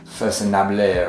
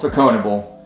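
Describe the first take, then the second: First: The name is said with French sounds. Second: The name is said with English sounds. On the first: The speaker calls it right. "It's French, It's like Façonnable or something like that" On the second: The speaker calls it wrong. "it is not pronounced like that"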